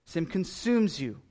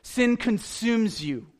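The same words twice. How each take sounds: First: Said in the usual way. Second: "Sin consumes you" said slowly, pitch raised, leaning hard on "Sin"; solemn, slow stress on "Sin"; slow weighty emphasis. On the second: Shown as a demonstration. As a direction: land "Sin" like a warning bell. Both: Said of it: "you've gotta understand this".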